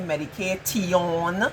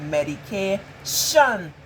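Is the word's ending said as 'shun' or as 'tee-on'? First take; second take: tee-on; shun. First: The ending is sounded out as tee-on. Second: The ending is said as one shun sound. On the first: The speaker calls it wrong. "we don't say medication. That sounds so foolish" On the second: The speaker calls it right. "We say medication"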